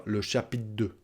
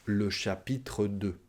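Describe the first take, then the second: First: "chapitre" cut to "chapit'" before "deux"; "chapitre deux" run together as "chapit' deux"; dropped final syllable. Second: Slow "chapitre deux" with a full "tre" before "deux"; "chapitre deux" said slowly and softly, "tre" sounded; final syllable pronounced. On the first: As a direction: swallow the "re" of "chapitre". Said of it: "On va pas dire". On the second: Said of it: "on va bien prononcer le tre à la fin". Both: Shown as a demonstration.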